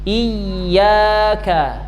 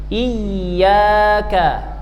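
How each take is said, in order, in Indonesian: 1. Bunyi y ditekan dan dobel. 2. Bunyi y ditekan dan dobel.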